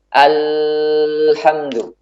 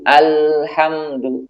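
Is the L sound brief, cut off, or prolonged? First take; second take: prolonged; brief. First: The L sound is held out long. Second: The L sound flows only briefly. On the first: The speaker calls it wrong. "Tidak juga dibuat mengalir yang panjang. ... Ini juga tidak tepat" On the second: The speaker calls it right. "Suaranya harus mengalir namun sedikit"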